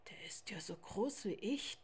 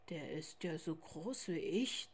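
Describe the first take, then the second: First: A hushed, breathy inner voice of the tiger; whispered thought. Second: A big bear wondering to himself; polar bear father's thought. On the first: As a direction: think it to yourself in awe. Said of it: "dachte er". (geflüsterter Gedanke) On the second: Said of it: "dachte auch Vater Eisbär". (tiefer, leiser Gedanke) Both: A narrator's reading.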